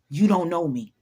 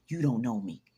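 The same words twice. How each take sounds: First: Loud, forceful motivational yell; David Goggins. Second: Said in the usual way. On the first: Acted. Coaching listeners to tell people off, loud and forceful. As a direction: punch it out hard and loud. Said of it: "In my David Goggins voice".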